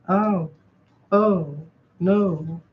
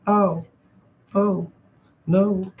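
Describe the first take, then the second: No difference in how they are said.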